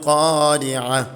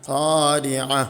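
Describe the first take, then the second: No difference in how they are said.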